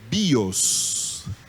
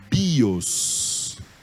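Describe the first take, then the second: First: The stress falls on the first vowel, i. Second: The same.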